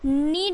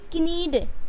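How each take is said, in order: First: No k sound is heard before the n. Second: A k sound is heard before the n. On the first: The speaker calls it right. "जैसे ही आप के को सब में silent करोगे" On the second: The speaker calls it wrong. "अगर के का उच्चारण आप करते हैं"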